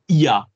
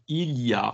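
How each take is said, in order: First: The L is dropped, said quickly and fluently. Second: The L is pronounced, said slowly and carefully. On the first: This is natural, fluent speech. "what you'd say if you're really speaking French fluently. You drop the L" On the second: This is careful, bookish speech. "if you're speaking slowly or very like kind of like from a book"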